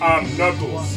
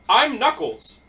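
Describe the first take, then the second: First: The voice is pitched lower and deeper. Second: The voice is ordinary, with nothing distinctive. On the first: The speaker calls it right. "a deeper voice" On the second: The speaker calls it wrong. "Everyone has a unique voice except for him"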